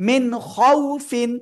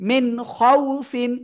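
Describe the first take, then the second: The two takes are said the same way.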